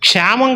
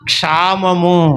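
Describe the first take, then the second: First: The word ends in a short '-am' sound. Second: The word ends in a full '-amu' sound. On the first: The speaker calls it wrong. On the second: The speaker calls it right.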